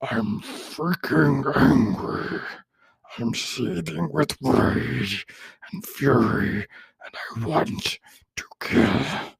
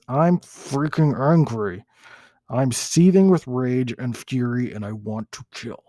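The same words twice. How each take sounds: First: Very slow, high whisper of a monster; second, better take of the monster voice, slow and whispered. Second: Monster voice. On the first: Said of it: "Let me try that one more time". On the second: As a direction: play the angry monster, slow and heavy. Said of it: "That's my monster voice". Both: Shown as a demonstration.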